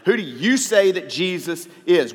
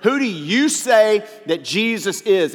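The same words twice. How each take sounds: First: "you" leaned on a little harder; stress on you. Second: "Who do you say that Jesus is?" slowed right down, higher and louder, "say" hit hardest; slow, emphatic question. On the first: Pastor pressing the congregation, a light stress on "you". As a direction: put the weight on "you", not on the others. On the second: Pastor asks each listener directly, slow and emphatic. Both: Shown as a demonstration. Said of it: "We have to answer that question".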